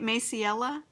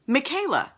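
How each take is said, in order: First: Maciela said as may-see-EL-a, questioning rise; unsure first try. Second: Michaela said as mih-KAY-la, settled falling tone; corrected name. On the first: Host guessing a viewer's name aloud, hesitant may-see-EL-a. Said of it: "Am I saying that right?". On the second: Host correcting a viewer's name, firm mih-KAY-la. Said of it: "Oh, Michaela. Yes, I knew that". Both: Shown as a demonstration.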